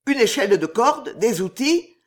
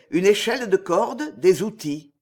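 First: "Une échelle de corde, des outils" blurted higher and louder; the count guesses aloud, raised and louder; eager exclaim. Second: Said in the usual way. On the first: A narrator's reading. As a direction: finish his sentence in a rush of eagerness. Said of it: "s'écria le comte".

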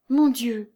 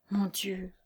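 First: Voiced, mildly raised lament; despairing cry. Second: Soft, whispered despair. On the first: Lucie wringing her hands in despair, crying out. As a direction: let the despair break out aloud. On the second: Lucie wringing her hands in despair, whispering. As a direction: breathe it out hopelessly. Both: A narrator's reading. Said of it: "bégaya Lucie ... avec désespoir".

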